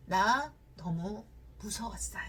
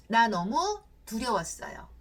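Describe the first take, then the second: First: Slow whisper of fear. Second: Said in the usual way. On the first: Retold or imitated. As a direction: let it out slowly with no voice. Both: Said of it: "그 자매는 어떻게 이야기를 했냐면".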